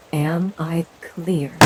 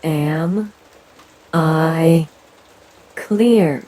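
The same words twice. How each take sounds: First: Said in the usual way. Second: "am", "I", "clear" each pushed out louder and separated by pauses; word by word, each hit. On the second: Acted. Leader repeating her demand, every word stressed and louder. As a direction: spell out "am I clear" one hammered word at a time. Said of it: "I said".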